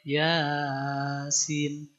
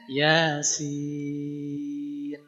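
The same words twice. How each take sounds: First: The ya is long and the sin short. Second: The ya is short and the sin long. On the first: The speaker calls it wrong. "Kebalik, ya-nya lebih panjang, sinnya lebih pendek" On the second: The speaker calls it right. "Ya-nya yang dua harokat, sinnya yang enam harokat"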